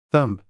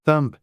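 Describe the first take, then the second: No difference in how they are said.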